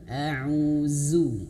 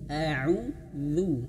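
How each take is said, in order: First: The middle consonant is a plain z sound. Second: The middle consonant is a voiced th-like sound. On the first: The speaker calls it wrong. "Huruf dzal itu jangan sampai seperti huruf zai ya. Jangan sampai" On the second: The speaker calls it right. "bukan zu tapi a'udzu. lidahnya dikeluarkan sedikit"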